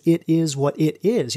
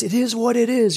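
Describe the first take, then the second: First: Said in the usual way. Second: High, dreamy, grateful tone; blissful. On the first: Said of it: "Because it is what it is". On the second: Retold or imitated. Recalling his grateful reply at ceremony, high and dreamy. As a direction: say it floating in gratitude. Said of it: "And the way I said it, it was".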